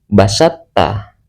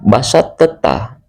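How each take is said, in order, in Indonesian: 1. Bunyi t pertama langsung menyatu ke t berikutnya. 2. Bunyi t pertama dilafalkan terpisah sebelum t berikutnya. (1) "to-nya dihilangkan langsung ke ta"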